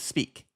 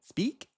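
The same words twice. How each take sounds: First: The pitch falls at the end of the word. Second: The pitch rises at the end of the word. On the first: The speaker wants to sound serious. "I'll go down to be serious" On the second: This is the speaker's usual way of talking. "generally, I'm going up"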